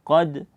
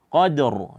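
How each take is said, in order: First: The word ends on d with no r. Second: The word ends with an audible heavy r. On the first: The speaker calls it wrong. "sehingga menghilangkan bunyi daripada huruf ra" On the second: The speaker calls it right. "kita harus memunculkan bunyi ra-nya"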